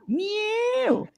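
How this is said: It is said in a whiny baby-talk voice. The speaker calls it wrong.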